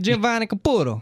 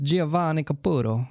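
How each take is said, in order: First: The name is said with exaggerated Italian flair. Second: The name is said flatly, without Italian flair. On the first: The speaker calls it right. "you gotta do the hand" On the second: The speaker calls it wrong. "I wasn't pronouncing it correctly"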